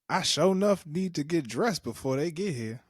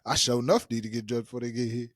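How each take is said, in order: First: It is said in a put-on little girl's voice. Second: It is said in the speaker's own ordinary voice.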